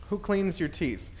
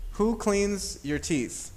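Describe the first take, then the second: First: Said in the usual way. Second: Slow question. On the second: Shown as a demonstration. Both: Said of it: "if I think about this question".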